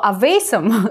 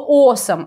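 First: The first vowel is an 'a' sound. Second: The first vowel is an 'o' sound. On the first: The speaker calls it wrong. "а вот слово awesome, к сожалению, в английском нет" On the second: The speaker calls it right. "Есть слово awesome"

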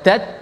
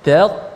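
First: The final t sound is thin and light. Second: The final t sound is thick and heavy. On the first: The speaker calls it wrong. "jangan tat" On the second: The speaker calls it right. "tapi tat"

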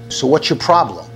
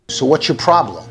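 Both takes have the same delivery.

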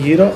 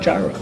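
First: The word is said with a Greek pronunciation. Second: The word is said with an American English pronunciation. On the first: "if you're gonna say gyro, which is Greek, say gyro" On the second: "If you're gonna just straight up American English, just say gyro"

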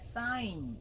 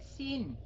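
First: The vowel is the diphthong ai, like sign. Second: The vowel is a short i, like sin. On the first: The speaker calls it right. "mà là sign" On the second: The speaker calls it wrong. "không phải là sin"

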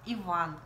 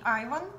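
First: The name starts with an 'ee' sound. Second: The name starts with an 'eye' sound. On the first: This is the name as the family says it. The speaker calls it right. "что он Иван" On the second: This is the local way of saying the name. The speaker calls it wrong. "не очень Айван"

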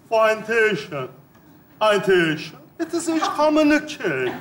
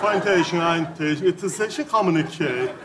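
First: The words are said slowly, one by one. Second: The words are said quickly and run together. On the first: The speaker calls it right. "Tane tane söyleyeceğim" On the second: The speaker calls it wrong. "hızlı konuştum"

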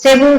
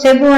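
First: The first vowel is short. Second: The first vowel is short.

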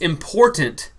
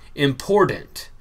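First: The word is pronounced carefully and fully. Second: The word is pronounced in a casual slangy way. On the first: The speaker calls it right. "the correct enunciation" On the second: The speaker calls it wrong. "my slang afterwards"

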